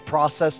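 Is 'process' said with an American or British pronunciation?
American. It is said with an American pronunciation. "I'm going to say process"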